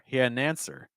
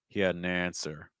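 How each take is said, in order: First: It steps up to a higher pitch. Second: It steps down to a lower pitch. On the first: "and then you go higher" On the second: "Second thought group lower pitch"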